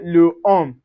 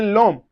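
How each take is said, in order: First: The article's vowel is said fully before the noun. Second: The article's vowel is dropped and joined to the noun. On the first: The speaker calls it wrong. "We don't say le homme" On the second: The speaker calls it right. "So we say l'homme"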